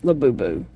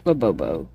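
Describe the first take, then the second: First: "Labubu" with oo vowels, pitched low; trying a pronunciation. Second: "Labobo" with oh vowels, dropping very low; trying another pronunciation. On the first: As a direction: try out "Labubu" as la-boo-boo, falling. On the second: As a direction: try out "Labobo" as la-boh-boh, falling. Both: Shown as a demonstration. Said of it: "I don't know how you say it".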